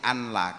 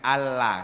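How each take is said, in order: First: The n is kept before a single l. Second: The n merges into a doubled l sound. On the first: The speaker calls it wrong. "nggak boleh anla" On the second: The speaker calls it right. "harus dibaca dengan Allah"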